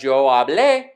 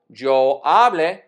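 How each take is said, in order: First: The verb is stressed on its last syllable. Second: The verb is stressed on its first syllable. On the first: It is the past (preterite) form. "is the indicative preterite form" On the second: It is the present subjunctive form. "is the present subjunctive form for hablar"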